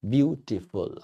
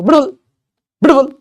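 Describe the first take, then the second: First: Said in the usual way. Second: ब्यूटीफुल squashed into one loud, high blurt; crammed into one beat. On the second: Shown as a demonstration. Teacher showing it cannot be said at once, ब्यूटीफुल crushed, high and loud. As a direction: shout ब्यूटीफुल with its middle syllables swallowed. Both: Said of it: "कह ही नहीं पाओगे".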